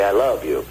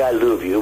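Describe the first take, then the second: First: Said in the usual way. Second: "love" said like "luv", French-accented; French-style love. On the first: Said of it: "We say I love you". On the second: Shown as a demonstration. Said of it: "We don't say I love you".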